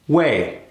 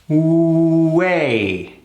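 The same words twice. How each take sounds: First: The W sound is very short. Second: The W sound is held long. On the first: "cut it even further" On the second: "a long W sound into that three"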